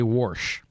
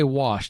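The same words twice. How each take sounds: First: The word is said with an R sound. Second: The word is said without an R sound. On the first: "they say wash ... they throw an R in there" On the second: "They don't say wash"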